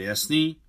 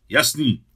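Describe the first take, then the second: First: JASNÝ asked with a rising end; checking question. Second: Loud JASNÝ with a falling end; chorused answer. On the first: Leader checks that his friends agree, asking JASNÝ with a rise. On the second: Boys answer their leader together, a loud agreement. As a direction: call JASNÝ back firmly and loudly. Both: A narrator's reading. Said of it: "odpověděli sborem kluci".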